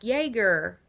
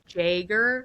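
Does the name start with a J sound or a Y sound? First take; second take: Y; J. First: The name starts with a Y sound. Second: The name starts with a J sound. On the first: "they would go to the Y's" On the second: "I would mispronounce it"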